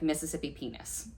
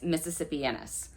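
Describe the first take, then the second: First: It is split into two separate English words. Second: It is run together as one single word. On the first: The speaker calls it wrong. "it looks like Mississippi penis, which is not how you say it" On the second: The speaker calls it right. "It's Mississippianus"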